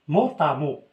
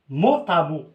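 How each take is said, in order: The two takes are said the same way.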